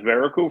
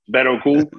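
First: It is said with a casual English pronunciation. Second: It is said with a careful Spanish-style pronunciation. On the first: The speaker calls it wrong. "I've been saying it as Barracuda for so long that it's definitely not the exact way to pronounce it" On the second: The speaker calls it right. "who's gonna put their NPR voice on every time they say a cigar name?"

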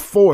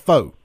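First: The word ends with a clear r sound. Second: The word ends without any r sound. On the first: The speaker calls it right. "It's a number four" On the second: The speaker calls it wrong. "It's not a faux"

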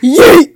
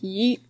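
First: The word is said loudly and forcefully. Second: The word is said quietly and casually.

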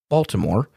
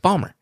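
First: The name is said with all its syllables. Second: The name is said in a clipped local way. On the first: The speaker is not from the city. The speaker calls it wrong. "People that ain't from Bawlmer" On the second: The speaker is from the city. The speaker calls it right. "It's how you say it. It's Bawlmer"

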